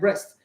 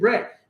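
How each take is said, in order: First: The name sounds like 'breast'. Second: The name sounds like 'Brett'. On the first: The speaker calls it wrong. "and I said breast" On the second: The speaker calls it right. "pronouncing the name Brett"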